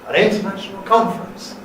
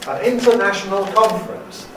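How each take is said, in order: No difference in how they are said.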